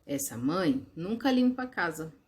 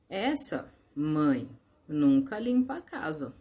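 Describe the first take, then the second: First: Said in the usual way. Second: Slow, with pauses after mãe and limpa; with comma pauses. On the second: Shown as a demonstration. Teacher reads the comma version to the class, slow and paused. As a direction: read "Essa mãe nunca limpa a casa" as a call, pausing at each comma. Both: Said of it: "Notaram a diferença que o uso das vírgulas causou".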